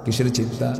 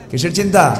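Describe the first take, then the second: First: Said in the usual way. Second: Raised, pressing preacher's question; louder rhetorical question. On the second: Acted. Preacher quizzing the audience, raised pressing voice. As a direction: push the question at the crowd.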